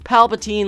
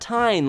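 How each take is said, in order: First: The last syllable rhymes with mean. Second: The last syllable rhymes with wine. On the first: The speaker calls it right. "like mean" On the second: The speaker calls it wrong. "not Tyne like wine"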